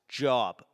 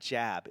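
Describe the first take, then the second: First: It is said with a standard accent. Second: It is said with a Boston accent.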